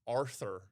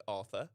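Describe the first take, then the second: First: Arthur with a hard American r; American pronunciation. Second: British accent. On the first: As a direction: say Arthur with a rolled-in American r at the end. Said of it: "that's how you say it in America". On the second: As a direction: say Arthur the British way. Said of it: "That was a bit of a British accent". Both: Shown as a demonstration.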